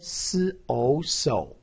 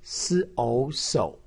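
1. 音高先降到低，再升起来。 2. 音高先降到低，再升起来。

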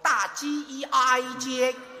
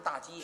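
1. 京剧念白的读法，把这个音节拼出来念。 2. 日常普通话的读法。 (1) "京剧的念白要把这个字拼出来" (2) "大街不说大街"

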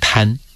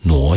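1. 这个字读 tan。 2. 这个字读 nuo。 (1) "多数人呢见边念边的话都会念成滩" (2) "但它事实上是呢窝挪傩戏啊"

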